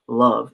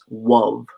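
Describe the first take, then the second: First: The word begins with a clear L sound. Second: The word begins with a W sound instead. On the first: The speaker calls it wrong. "it's not love" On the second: The speaker calls it right. "it's wov. The W U V"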